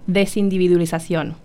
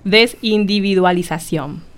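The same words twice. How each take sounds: First: The word is said fast. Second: The word is said slowly.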